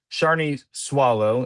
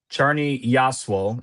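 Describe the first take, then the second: First: The surname starts with an S sound. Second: The surname starts with a Y sound. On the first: The speaker calls it wrong. "it's not Swallow" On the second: The speaker calls it right. "is how you pronounce that name"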